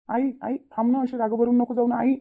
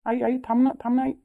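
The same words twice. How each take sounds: First: Loud, high begging to stop her leaving; pleading call. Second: High, loud call after a mother who is walking away; pleading call. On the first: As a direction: plead with her not to go off angry. Son keeps calling after mother. (मोठ्याने, उंच आवाजात विनवणी) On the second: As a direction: call her back, begging, louder and higher. Son calls after leaving mother. (आईला थांबवायला मोठ्याने विनवणी) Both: Acted.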